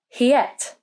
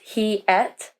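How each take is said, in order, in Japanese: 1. 「y」の音で二つの単語がなめらかにつながります。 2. 「y」の音はなく、二つの単語は別々です。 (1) "the linking sound is Y"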